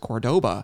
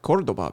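First: The word is pronounced the English way. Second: The word is pronounced the Spanish way. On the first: This is how the car company wanted the name said. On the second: This is how the name is said in its original language.

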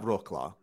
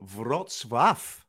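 First: The name is read as English spelling suggests. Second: The name is said with its Polish sounds. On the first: The speaker calls it wrong. "it looks like Roklar" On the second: The speaker calls it right. "but it's actually Wrocław"

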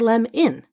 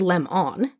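First: The second vowel is a reduced schwa sound. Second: The second vowel is a full 'on' sound. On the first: The speaker calls it right. "we say lem in. That's what we call a schwa" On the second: The speaker calls it wrong. "We don't say lem on"

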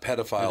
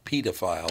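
First: The first syllable sounds as in pedestrian. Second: The first syllable sounds as in pediatrician. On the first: The speaker calls it wrong. "Not pedophile, like ... In pedestrian" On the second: The speaker calls it right. "It's pedophile, actually, as in pediatrician"

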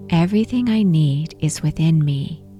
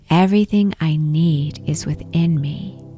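First: It is said aloud in a strong voice. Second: The same.

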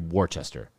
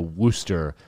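First: The name is said fully as spelled. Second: The name is said in a shortened form. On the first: This is how it looks like it should sound. The speaker calls it right. "that is so clearly" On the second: This is the imposed pronunciation. The speaker calls it wrong. "hoodwinked us into pronouncing a city in America"

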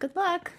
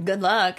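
First: It is said in a genuine, sincere tone. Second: It is said in a sarcastic tone.

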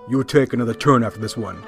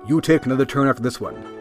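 First: It is said like a menacing mobster. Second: It is read in a plain, neutral way. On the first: It sounds like an order or a threat. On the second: It is a helpful statement of a benefit.

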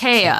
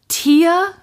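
First: It is two syllables starting with a 'tie' sound. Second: It is two syllables starting with a 'tee' sound. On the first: "pronounced Taya?" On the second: "Taya or Tia"

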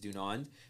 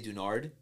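First: The name ends with an N sound. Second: The name ends with an R sound. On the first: The speaker calls it right. "pronunciation is Dunand" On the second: The speaker calls it wrong. "People somehow will change the last N to an R"

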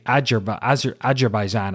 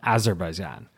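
First: The first consonant sounds like a J. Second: The first consonant sounds like a Z. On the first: The speaker calls it wrong. "I say it like a J" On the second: The speaker calls it right. "it is in fact a Z or a Z"

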